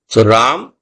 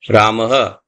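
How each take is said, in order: First: It ends on the consonant m, no vowel. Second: It ends with a breathy h and echo vowel. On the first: "Ram with the halant. You say Ram. Just the ma in a short form" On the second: "Ramaha, which is the Visarg"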